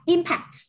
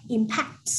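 First: Impact stressed on the first syllable, IM-pact. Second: Impact stressed on the second syllable, im-PACT; verb stress. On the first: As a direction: noun impact, slow, weight on IM. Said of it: "vần một". (nhấn vần một: IM-pact) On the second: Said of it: "dạng động từ thì mình sẽ đọc là impact". (nhấn vần hai: im-PACT) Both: Shown as a demonstration.

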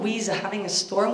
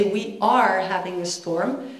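First: "We's" run together as "weez"; mock bad grammar. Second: "We are" in full, two separate words; correct grammar. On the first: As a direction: quote the mistake, "We's" as one word ending in z. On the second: Acted. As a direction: stress "are" in "We are having a storm". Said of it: "You should say".

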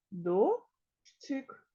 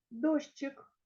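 First: Дощик said as До-щик; split into syllables. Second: Said in the usual way. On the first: Shown as a demonstration. Teacher dividing the word for pupils, syllable by syllable. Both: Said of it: "Поділяємо".

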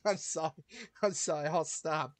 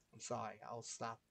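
First: Louder, rapid I'm sorry after laughing; loud apology. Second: Softer, lower I'm sorry; quiet apology. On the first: Apologizing to viewers after the crude joke, loudly. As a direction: blurt sorry over and over, loud. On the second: Apologizing to viewers again, now softly. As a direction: say sorry again under your breath. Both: Real, not acted.

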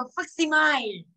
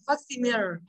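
First: Facsimile said wrongly, ending like "fak-si-mile" with a long "I" sound; wrong pronunciation. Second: Facsimile said correctly as "fak-SIM-i-lee"; correct pronunciation. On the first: Teacher shows students the common mistake, facsimile mispronounced. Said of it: "Rất là nhiều người sẽ đọc là". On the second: Teacher gives students the correct form, facsimile pronounced right. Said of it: "nhưng là". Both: Shown as a demonstration.

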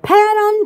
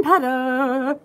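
First: Pattern sung out as a Korean word; playful Korean chant. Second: Pattern spoken, rising at the end; casual spoken Korean word. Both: Shown as a demonstration. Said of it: "Which means blue ocean in Korean".

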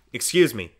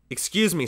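First: Louder, firm first excuse; stern reproof. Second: Higher, insistent second excuse; raised repeat. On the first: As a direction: push him off, firm. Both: A narrator's reading. Father stops the child.

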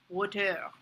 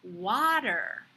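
First: "water" with an almost closed mouth, rounded first vowel; French learner's "water", mouth barely open. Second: "water" with a wide open "ah" and American r; open-mouthed "water". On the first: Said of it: "shows an almost closed mouth". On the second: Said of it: "you see a nice open". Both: Shown as a demonstration.

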